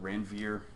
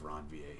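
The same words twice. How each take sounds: First: The name has an English-style pronunciation. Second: The name has a French-style pronunciation. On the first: The speaker calls it wrong. "Anybody call it Ranvier?" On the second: The speaker calls it right. "please pronounce it nodes of Ranvier"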